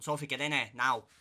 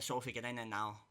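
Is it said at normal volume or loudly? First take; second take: loudly; normal volume. First: It is said in a louder tone. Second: It is said at normal volume.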